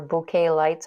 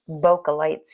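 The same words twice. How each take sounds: First: "bouquet" said boo-KAY, stress on the last syllable; self-correct to "bouquet", boo-KAY; corrected pronunciation. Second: "bokeh" said BOH-kuh, stress on the first syllable; habitual pronunciation. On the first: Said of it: "I think it's pronounced bouquet". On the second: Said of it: "I'm so used to saying bokeh". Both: Real, not acted.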